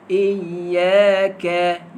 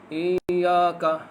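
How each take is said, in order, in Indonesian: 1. Diucapkan dengan jelas, mulut terbuka lebar. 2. Digumam santai, mulut hampir tidak terbuka. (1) "tuan-tuan tengok mulut saya" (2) "baca Quran tak buka mulut. Selamba dia baca"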